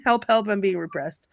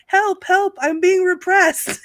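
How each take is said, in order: First: Said in the usual way. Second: High, loud cry of help help; high mock yell, being repressed. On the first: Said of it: "I'm going to scream". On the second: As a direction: yell it like a peasant playing victim. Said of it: "he was yelling".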